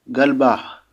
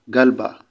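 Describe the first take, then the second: First: The pitch rises at the end. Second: The pitch stays level at the end. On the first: The possessor is a woman. "la voix est montante" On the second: The possessor is a man. "si c'est un homme, galba, tout court"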